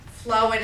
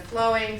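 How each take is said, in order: First: "flowing" as "flowin'"; dropped final G. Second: Said in the usual way. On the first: Shown as a demonstration. Teacher showing omitted sounds, "flowing" without the G. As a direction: end "flowing" on a plain N. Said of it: "the omission of sounds". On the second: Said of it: "instead of flowing".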